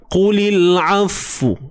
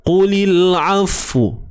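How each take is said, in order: Both takes have the same delivery.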